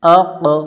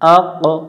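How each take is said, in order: No difference in how they are said.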